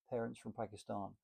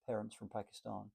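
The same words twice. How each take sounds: The two takes are said the same way.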